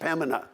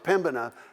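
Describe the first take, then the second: First: The B sound is left out of the word. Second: The B sound is pronounced in the word. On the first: The speaker calls it right. "you don't even pronounce the B, it's just Pembina" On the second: The speaker calls it wrong. "no, it's Pembina"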